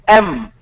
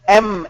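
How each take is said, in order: Both takes have the same delivery.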